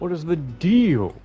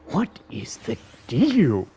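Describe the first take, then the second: First: It is said in a normal voice. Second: It is said in a Grinch impression voice.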